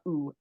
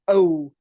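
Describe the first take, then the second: First: The vowel is a tighter 'ooh' sound. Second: The vowel is a rounded 'oh' sound. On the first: This is the stereotype people believe Canadians use. The speaker calls it wrong. "not ooh" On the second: This is how Canadians actually say it. The speaker calls it right. "It's oh, not ooh"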